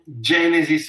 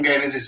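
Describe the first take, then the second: First: The G is soft, as in 'gem'. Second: The G is hard, as in 'go'. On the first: The speaker calls it right. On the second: The speaker calls it wrong.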